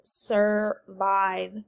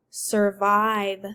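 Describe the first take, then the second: First: SURVIVE slowly parted, sur, then vive; split into syllables. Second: Said in the usual way. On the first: Shown as a demonstration. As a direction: separate "Survive" into two beats. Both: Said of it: "separated into two syllables".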